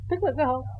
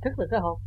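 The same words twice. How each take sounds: First: "Thức là cái hồn" repeated higher, stress on "là"; emphatic restatement. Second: Said in the usual way. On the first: Shown as a demonstration. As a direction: lift it up the second time, leaning on "là".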